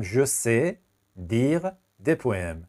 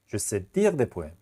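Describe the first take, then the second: First: Each word drawn out slowly; slow teacher dictation. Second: Steady slow repeat; slow classroom repeat. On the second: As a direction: say the sentence again, a bit less drawn out. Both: Shown as a demonstration.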